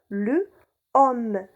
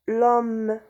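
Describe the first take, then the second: First: The article keeps its vowel as a separate syllable. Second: The article loses its vowel and joins the noun. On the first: "normalement le homme" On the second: "on a effacé le E de le"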